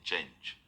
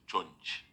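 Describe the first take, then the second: First: The word is pronounced in the standard way. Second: The vowel is changed, giving 'chunch'. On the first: "instead of saying change" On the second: "he says chunch"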